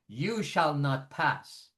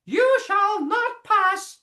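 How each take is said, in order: First: It is said at a normal speaking pitch. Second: It is said in a cartoonish character voice. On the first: "That's my regular pitch" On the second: "That's cartoonish"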